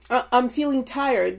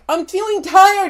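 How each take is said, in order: First: It is said plainly and calmly. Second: It is said in an exaggerated, dramatic way. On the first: A simple report of feeling tired. The speaker calls it right. "instead of saying" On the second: The tiredness is blown out of proportion. The speaker calls it wrong. "They were like, ... everything was an exaggeration"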